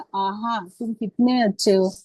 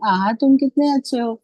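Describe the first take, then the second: First: Said in the usual way. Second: Exclamatory reading. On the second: Shown as a demonstration. Teacher to trainee teachers, showing how to read an exclamation with delighted surprise. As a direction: read "आहा, तुम कितने अच्छे हो" with wonder and delight. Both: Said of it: "अलग-अलग तरीके से उसको पढ़ना है".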